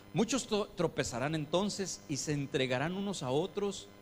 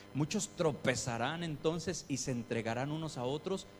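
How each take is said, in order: No difference in how they are said.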